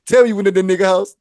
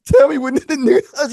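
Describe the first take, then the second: First: Said in the usual way. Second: Repeated demand. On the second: Retold or imitated. Angry demand, repeated louder.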